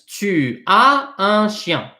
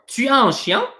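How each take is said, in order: First: The voice falls at the end like a statement. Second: The voice rises at the end like a question.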